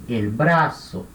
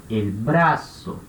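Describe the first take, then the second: Both takes have the same delivery.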